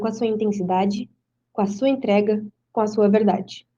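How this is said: Long, heavy pauses separate the phrases. Each phrase is highlighted with more intensity. "o ponto final, ele traz uma pausa maior, uma pausa mais intensa"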